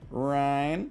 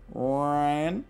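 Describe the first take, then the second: First: The name is said as one syllable. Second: The same.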